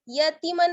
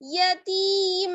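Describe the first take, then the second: First: The final n sound is pronounced clearly. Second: The final n sound is hidden and nasalized. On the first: The speaker calls it wrong. "यतीमन नहीं पढ़ेंगे" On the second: The speaker calls it right. "छुपा के पढ़ते हैं"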